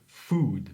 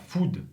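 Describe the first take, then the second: First: "food" with a long back OO, low; tongue back, lips nearly closed on "food"; correct long OO. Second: "food" with a short French OU; French-sounding "food", vowel cut short; wrong short vowel. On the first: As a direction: stretch the vowel of "food". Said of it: "mais food". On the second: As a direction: say "food" short, without the long OO. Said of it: "et pas food". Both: Shown as a demonstration.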